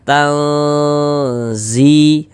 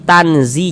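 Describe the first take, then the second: First: The n sound is hidden, nasalized and held. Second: The n sound is clear and short. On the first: The speaker calls it right. "suaranya itu kita tahan ya, kita panjangkan sejenak ... sepanjang dua harokat" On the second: The speaker calls it wrong. "Jangan kita baca tanzi tanzi jangan, tapi disamarkan"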